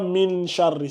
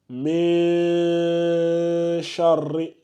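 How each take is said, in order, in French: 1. Le premier mot finit par une nasale fermée. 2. Le premier mot finit par une voyelle ouverte. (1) "C'est pas min charri" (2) "C'est mais charri"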